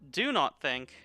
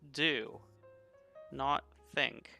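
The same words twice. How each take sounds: First: There is no pause after 'do'. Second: There is a pause after 'do'. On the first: Refrain from thinking. The speaker calls it wrong. "Not do not think" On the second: Act instead of thinking. The speaker calls it right. "It's do, not think"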